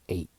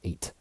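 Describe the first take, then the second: First: The final T sound nearly disappears. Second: The final T sound is clearly pronounced. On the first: "in American English, oftentimes the T kind of disappears" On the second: "Instead of"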